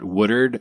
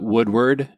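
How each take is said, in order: First: The name is said in the local way. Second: The name is said as it is spelled. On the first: This is how people from the area say it. "I'm going to use the local pronunciation of it. It's not really the pronunciation of it" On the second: This is how someone going by the spelling says it. "we call it Woodward. Anyone that reads"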